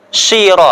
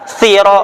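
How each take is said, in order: First: It starts with a sh sound. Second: It starts with a th sound. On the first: "Ada yang shin" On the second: "Bahkan ada yang parahnya tha"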